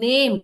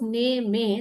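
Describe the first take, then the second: First: It has a single vowel sound. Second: It has two vowel sounds. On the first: The speaker calls it right. "Only we can hear the a in it" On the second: The speaker calls it wrong. "then we could we could hear two vowel sounds"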